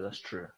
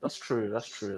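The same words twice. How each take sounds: First: Barely audible; fading to near silence. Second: Fading. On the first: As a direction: let it die away. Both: Real, not acted. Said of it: "repeated fading".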